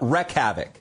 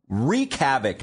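First: The first word rhymes with 'neck'. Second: The first word rhymes with 'seek'. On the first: The speaker calls it wrong. "not wreck havoc" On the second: The speaker calls it right. "It's wreak havoc"

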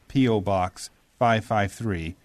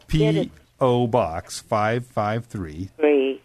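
First: The address is spoken quickly. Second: The address is spoken slowly. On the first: The speaker calls it wrong. "I do say it fast" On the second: The speaker calls it right. "Let me do that again"

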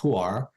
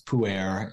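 First: It is pronounced the traditional Mandarin way. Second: It is pronounced the anglicized Western way. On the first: "in the traditional Mandarin pronunciation, we call it pu'er" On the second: "I hear it most often as pu'er in the West"

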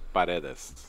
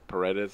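First: The name is said with Spanish pronunciation. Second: The name is said with English pronunciation. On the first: "It's actually pronounced like in Spanish" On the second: "If you just say Paredes, it's fine"

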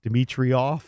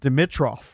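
First: An extra 'ee' sound comes before the last syllable. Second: No extra 'ee' sound comes before the last syllable. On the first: The speaker calls it wrong. "I've always thought his name was pronounced Dimitrioff. And I was like throwing the I in there" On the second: The speaker calls it right. "pronounced it Dimitrov"

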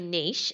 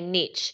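First: It is said the Australian way. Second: It is said the American way.

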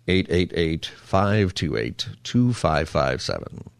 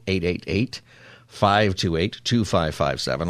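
First: The number is said at a slower pace. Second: The number is said at a faster pace.

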